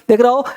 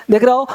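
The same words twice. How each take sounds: The two takes are said the same way.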